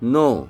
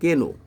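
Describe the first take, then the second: First: The word starts directly with an N sound. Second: The word starts with a pronounced K sound. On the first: The speaker calls it right. "এখানে কেটা হলো silent word, এটা উচ্চারিত হবে না" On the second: The speaker calls it wrong. "আমি যখন ছোট ছিলাম তখন আমি নো রে বলতাম কে নো"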